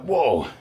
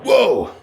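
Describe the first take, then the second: First: Said in the usual way. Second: Surprised. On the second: Real, not acted. Shocked at himself after workout.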